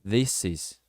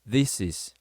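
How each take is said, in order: First: The s sound runs straight into is. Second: The s sound runs straight into is.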